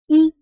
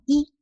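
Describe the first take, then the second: First: The syllable is said with a high level tone. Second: The syllable is said with a rising tone. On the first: It is counted as a number on its own. "c'est i, c'est le premier ton" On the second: It comes before a fourth tone measure word. "Donc c'est deuxième ton"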